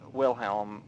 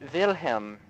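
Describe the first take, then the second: First: The name begins with a W sound. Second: The name begins with a V sound. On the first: "instead of Wilhelm, like a normal English person" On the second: "I pronounced it Wilhelm"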